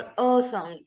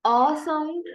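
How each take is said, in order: First: अ as a rounded "aw", falling; rounded vowel sound. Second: अ as an open "ah", higher and rising; open vowel sound. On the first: Teacher contrasting the second sound, अ as rounded falling "aw". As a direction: round the lips on अ, let the tune fall. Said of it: "low back slightly rounded vowel". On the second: Teacher naming the first of two sounds, अ as rising "ah". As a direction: lift अ sound, with अ said as "ah". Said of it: "अ is a short back". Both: Shown as a demonstration.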